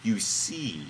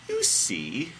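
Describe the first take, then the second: First: "You see" with the tune falling; falling statement. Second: "You see" higher, rising at the end; rising tune. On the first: Acted. Host reading God's last line, falling tune. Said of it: "Or maybe that's supposed to be". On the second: Shown as a demonstration. Host trying another reading of God's line, rising tune. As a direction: lift "You see" upward on the last word. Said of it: "maybe that's supposed to be".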